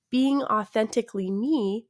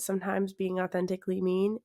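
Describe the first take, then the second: First: "me" said carefully as a plain open vowel with no n after it; fixing the slip by landing cleanly on "me"; corrected word. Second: "mean" said by mistake, with a clear n at the end; blurting "mean" where she meant "me", ending on an n; slip of the tongue. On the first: Podcast host corrects her slip to her listeners, clear "me". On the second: Podcast host trips over a word while greeting listeners, says "mean". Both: Real, not acted. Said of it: "not mean".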